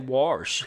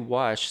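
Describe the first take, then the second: First: The word is said in an exaggerated Southern accent. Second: The word is said in a plain, neutral accent. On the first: "say wash, and we're good" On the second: "Don't say wash"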